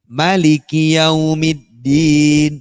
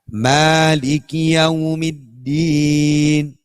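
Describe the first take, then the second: First: The first vowel of Maliki is kept short. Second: The first vowel of Maliki is held long. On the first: This is another accepted reading. "Ada yang baca, imam lain" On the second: This is the common reading. "Kalau di surah Fatihah Malik panjang"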